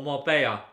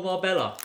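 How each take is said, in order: First: Marbella said as "mar-BAY-a"; local Spanish pronunciation. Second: Said in the usual way. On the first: Shown as a demonstration. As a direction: say Marbella with a y sound for the double L. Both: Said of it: "as they like to say it".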